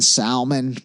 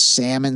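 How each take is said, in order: First: The L in the word is pronounced. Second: The L in the word is silent. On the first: The speaker calls it wrong. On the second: The speaker calls it right.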